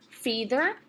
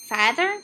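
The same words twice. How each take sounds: First: The first vowel is a long E sound. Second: The first vowel is a long A sound. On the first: "Let's try the long E sound first" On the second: "So let's try long A"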